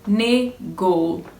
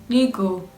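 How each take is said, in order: First: The first vowel sounds like 'eh'. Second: The first vowel sounds like 'ee'. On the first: The speaker calls it right. "I don't know how you want to put it, but nego, nego" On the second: The speaker calls it wrong. "This woman was literally saying nigo"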